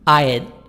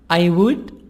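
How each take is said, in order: First: The words are contracted into one short syllable. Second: Both words are said fully and separately.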